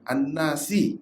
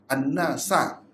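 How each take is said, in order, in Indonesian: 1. Kata itu berakhir dengan vokal 'i'. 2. Kata itu berakhir dengan vokal 'a'. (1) "bukan An-Nasi"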